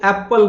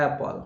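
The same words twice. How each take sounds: First: "एप्पल" with a hard doubled p; the wrong "एप्पल", p held; mispronounced apple. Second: "एप्पल" with long first vowel and single p; light-p "एप्पल"; corrected apple. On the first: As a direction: say "एप्पल" as ap-pal, stressing the p. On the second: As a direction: say "एप्पल" as AE-pl, falling. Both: Shown as a demonstration. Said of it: "तो एप्पल नहीं होता है".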